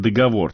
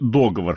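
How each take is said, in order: First: The stress is on the last syllable. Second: The stress is on the first syllable. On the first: "по-прежнему можно говорить и" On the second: "ударение на первый слог"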